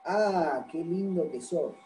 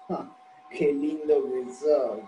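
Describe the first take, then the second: First: Sincere, softly spoken compliment; tender "what a cutie" intonation; admiring compliment. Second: Slow, dragged-out mock praise; dry, ironic fake admiration; sarcastic compliment. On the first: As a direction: say it as honest admiration of someone's looks. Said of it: "con una entonación se puede ver esto". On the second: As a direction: draw it out so it means "you're ugly". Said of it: "me están diciendo que soy más feo". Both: Shown as a demonstration.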